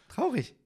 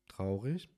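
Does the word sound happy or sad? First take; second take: happy; sad. First: It is said in a happy tone. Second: It is said in a sad tone.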